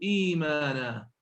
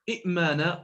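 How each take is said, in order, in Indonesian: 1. Satu hamzah diikuti vokal panjang. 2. Dua hamzah berurutan, yang kedua tanpa vokal. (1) "أبدلوا الهمزة الساكنة حرف مد" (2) "لم يكونوا ينطقون همزتين متتاليتين ثانيهما ساكنة"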